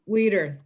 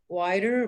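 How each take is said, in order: First: The first vowel sounds like 'wee'. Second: The first vowel sounds like 'why'. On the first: The speaker calls it right. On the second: The speaker calls it wrong.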